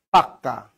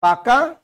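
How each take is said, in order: First: Low, falling পাক্কা with a doubled k; pak-ka for পাক্কা, dropping in pitch; double pressure. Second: Said in the usual way. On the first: Shown as a demonstration. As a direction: hold the k of পাক্কা before releasing. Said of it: "double pressure পড়বে".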